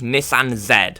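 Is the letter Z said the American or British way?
British. Z is said the British way, as zed.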